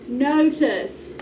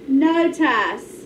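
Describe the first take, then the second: First: The second syllable has a reduced schwa vowel. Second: The second syllable has a full vowel. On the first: The speaker calls it right. "We need to give it a schwa sound" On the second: The speaker calls it wrong. "That vowel's wrong again"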